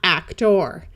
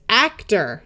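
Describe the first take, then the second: First: The final syllable sounds like a clear 'or'. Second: The final syllable sounds like a reduced 'er'. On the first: The speaker calls it wrong. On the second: The speaker calls it right. "it tends to sound more like er"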